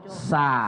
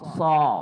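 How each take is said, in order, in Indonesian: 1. Huruf ini diucapkan tipis, tanpa mengangkat pangkal lidah. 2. Huruf ini diucapkan tebal, dengan pangkal lidah terangkat ke belakang. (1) "Tidaklah dibaca sa" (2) "ada terangkat anak lidah belakang"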